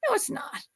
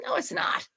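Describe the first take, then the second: First: Whispered, gentle denial; whispered reassurance. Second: High, emphatic denial; high reassurance. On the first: Host to nervous cook: soft whispered reassurance. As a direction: breathe it softly with no voice. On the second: Host to nervous cook: high, emphatic reassurance. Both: Real, not acted.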